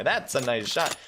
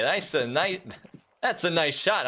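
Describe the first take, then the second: First: Said in the usual way. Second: Put-on Italian accent. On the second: Caster praising a sniper's shot, in a mock Italian accent. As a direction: slip into a playful Italian accent praising "that's a nice shot". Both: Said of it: "I don't know why I turned Italian there".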